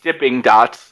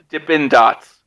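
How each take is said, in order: First: The first word ends in an ng sound. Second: The first word ends in a plain n sound. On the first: The speaker calls it wrong. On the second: The speaker calls it right. "we're gonna say it right"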